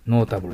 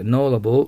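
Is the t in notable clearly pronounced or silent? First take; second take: clear; silent. First: The t sound is clearly pronounced. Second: The t sound is dropped and barely heard. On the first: The speaker calls it wrong. "じゃなくて" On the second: The speaker calls it right. "t を発音しないので気をつけてください"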